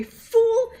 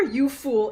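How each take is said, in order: First: "Fool" bellowed much higher and louder; villain roar of "Fool" at an idiot; shouted fool. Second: Said in the usual way. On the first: Shown as a demonstration. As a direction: hit "Fool" with force and intensity. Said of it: "It has to be". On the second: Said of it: "it is never".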